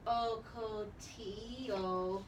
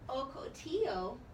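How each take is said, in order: First: The word is broken into separate syllables. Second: The word is said smoothly as one unit. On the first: The speaker calls it wrong. "we don't just say Okotio" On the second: The speaker calls it right. "We have to go back and say the whole word together"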